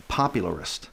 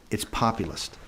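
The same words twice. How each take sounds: First: "popularist" with "ar" slipped in before "ist"; mispronounced "popularist". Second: "populist" said as pop-u-list; corrected pronunciation. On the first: Candidate claims he's got it, still says "popularist" with "ar". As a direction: softly repeat the wrong word "popularist", pop-u-lar-ist. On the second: Adviser corrects him a second time, "populist" without "ar". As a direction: softly correct it to "populist", three syllables only. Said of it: "I got it, popularist". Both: Retold or imitated.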